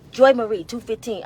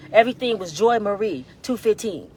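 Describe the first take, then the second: First: "Joy Marie two fifteen" repeated louder, each part stressed, "Joy" strongest; emphatic repeat. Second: Said in the usual way. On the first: Shown as a demonstration.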